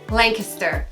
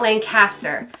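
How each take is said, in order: First: Lancaster is said the way locals pronounce it. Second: Lancaster is said the way outsiders pronounce it. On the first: The speaker calls it right. "It's pronounced Lancaster" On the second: The speaker calls it wrong. "not Lancaster"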